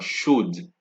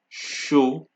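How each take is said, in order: First: A d sound is heard at the end. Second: No d sound is heard at the end. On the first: The speaker calls it wrong. "nor chaude" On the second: The speaker calls it right. "the D at the end of the word are not pronounced"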